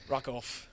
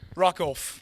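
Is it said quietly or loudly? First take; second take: quietly; loudly. First: It is said quietly, with little passion. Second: It is said loudly, with more passion.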